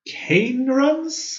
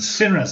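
First: The first C is said hard, like K. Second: The first C is said soft, like S. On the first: The speaker calls it wrong. "How do you pronounce this?" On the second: The speaker calls it right. "so it's a soft C"

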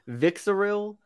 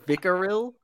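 First: The first name is said with a z sound. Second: The first name is said without a z sound. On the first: The speaker calls it wrong. "I'm gonna say it without the pronunciation again" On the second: The speaker calls it right. "Unfortunately, the Z is silent"

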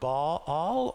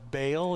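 First: It is pronounced differently from the common English way. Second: It is pronounced the common English way.

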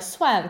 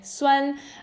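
First: It is said with the tone of the word garlic. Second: It is said with the tone of the word sour. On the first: It means garlic. The speaker calls it wrong. "произносила пару раз как суан, как чеснок" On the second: It means sour, as in yogurt. The speaker calls it right. "Суанай, суан"

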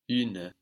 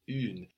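First: A short vowel is heard after the N. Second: The word ends on the N sound. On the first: Some dialects say it this way. "we could also hear une with the E on the end" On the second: This is how most dialects say it. "we just get une in most dialects of French"

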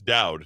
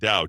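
First: The final D sound is clearly pronounced. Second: The final D sound is left off. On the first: The speaker calls it right. "It's Dowd" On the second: The speaker calls it wrong. "not Dowd"

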